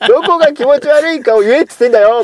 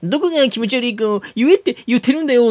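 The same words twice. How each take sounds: First: A hint of a coaxing purr; lightly sweet-talking, half laughing. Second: High, lightly cooing imitation; coaxing voice. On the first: Real, not acted. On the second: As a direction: mimic a sugary coaxing tone. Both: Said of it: "その猫なで声だもの".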